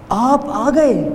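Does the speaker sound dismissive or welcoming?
welcoming. It is said in a warm, pleased tone. The guest's arrival is a welcome honour. "مطلب میری محفل میں آپ آ گئے"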